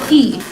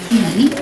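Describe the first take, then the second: First: The syllable is said with the fourth tone. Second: The syllable is said with the third tone.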